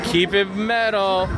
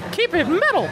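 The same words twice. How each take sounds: First: It is said in his normal voice. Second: It is said in a Mickey Mouse voice.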